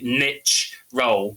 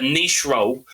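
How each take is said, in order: First: Niche is said the American way. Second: Niche is said the non-American way.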